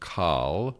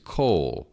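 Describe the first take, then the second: First: The vowel is an a sound. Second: The vowel is an o sound. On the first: The speaker calls it wrong. "this looks like it should be pronounced kal" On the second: The speaker calls it right. "It's an o vowel rather than an a vowel"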